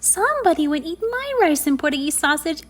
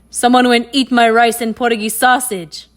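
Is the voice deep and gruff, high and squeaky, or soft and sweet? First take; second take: high squeaky; deep gruff. First: It is said in a high, squeaky voice. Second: It is said in a deep, gruff voice.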